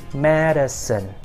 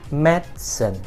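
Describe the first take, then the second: First: The word is said with two syllables. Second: The same.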